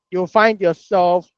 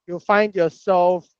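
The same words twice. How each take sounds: The two takes are said the same way.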